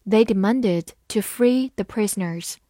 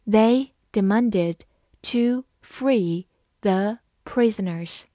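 First: Said in the usual way. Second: Slow, word by word; measured teacher's model reading. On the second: Shown as a demonstration. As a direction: read slowly with pauses between words. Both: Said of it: "慢读一遍".

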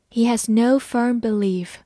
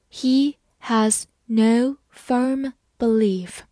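First: Said in the usual way. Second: Very slow, each word apart; slow reading. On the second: Shown as a demonstration. Teacher reads slowly for students to follow. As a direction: read it slowly for learners. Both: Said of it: "好，慢慢来读。".

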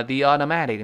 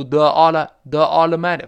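First: THE as "thee" gliding into automatic; smooth "thee" link. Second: THE as a loud, heavy "thuh" before automatic; awkward "thuh" reading. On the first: Teacher showing the comfortable reading, "thee" linked smoothly. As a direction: say "the automatic" with a long ee. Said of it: "你读the舒服吗". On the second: Teacher showing how awkward it sounds, heavy "thuh". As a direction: say "the automatic" with a clumsy schwa, loudly. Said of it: "非常别扭". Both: Shown as a demonstration.

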